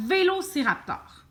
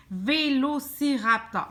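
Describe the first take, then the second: First: Said in the usual way. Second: VÉLOCIRAPTOR slowly, each syllable marked; measured, careful VÉLOCIRAPTOR for the learner. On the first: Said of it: "l'autre mot que je veux essayer d'écrire". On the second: Shown as a demonstration. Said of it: "Couper ton mot en par syllabe".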